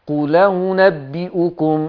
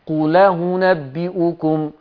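No difference in how they are said.

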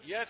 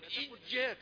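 First: The y sound is short and light, not doubled. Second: The y sound is forced and drifts toward j. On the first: It sounds like a word for the light around the sun. "كثيرون مع السرعة يقول إياك نعبد" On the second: It moves to another sound's place of articulation. "لا تقل إياك، لأنك هكذا تنتقل إلى مخرج آخر، إلى مخرج الجيم"

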